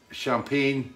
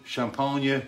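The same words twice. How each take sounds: First: Said in the usual way. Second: Champagne as a drawn-out French "shom-PAN-yuh", nasal first vowel; mock French pronunciation. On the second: Shown as a demonstration. Reading a viewer's name, mock French Champagne. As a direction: play up Champagne with a hammed French sound and a trailing "yuh".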